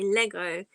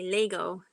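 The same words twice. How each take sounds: First: Lego is said in a British accent. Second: Lego is said in an American accent.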